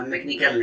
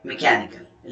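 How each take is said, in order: First: मैकेनिकल said with the stress misplaced, marked as wrong; wrong stress, rejected. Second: मैकेनिकल said with the stress in the correct place; correct stress, teacher's model. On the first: Teacher showing engineering students the wrong stress on मैकेनिकल. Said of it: "मैकेनिकल नहीं". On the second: Teacher giving engineering students the correct stress on मैकेनिकल. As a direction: model मैकेनिकल cleanly for the class. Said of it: "stress सही जगह पे होना चाहिए". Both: Shown as a demonstration.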